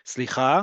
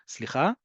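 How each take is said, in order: First: It is said in a direct, attention-seeking tone. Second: It is said in a nice, gentle tone.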